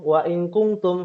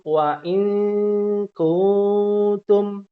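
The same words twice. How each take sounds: First: The nasal is rushed through without holding. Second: The nasal is held for about two beats. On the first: The speaker calls it wrong. "langsung langsung lempar loncat gitu... nggak bisa" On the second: The speaker calls it right. "Dia harus ada temponya dulu"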